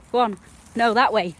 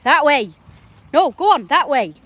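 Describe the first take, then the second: First: Raised, firm direction; real firm call to the dog; directing the dog. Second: Much louder, higher shout of that way; real shout at the dog; yelling at the dog. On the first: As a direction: point the dog the right way. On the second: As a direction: force the dog to go that way. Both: Real, not acted. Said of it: "I'm yelling at the dog".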